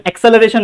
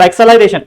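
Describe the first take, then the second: First: एक्सेलरेशन said as "ek-se-luh-RAY-shun"; rejected pronunciation. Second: एक्सेलरेशन said as "ek-sa-lai-RAY-shun"; intended pronunciation. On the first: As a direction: say एक्सेलरेशन like English "acceleration". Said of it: "नहीं है". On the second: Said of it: "एक्सेलरेशन नहीं है". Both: Shown as a demonstration.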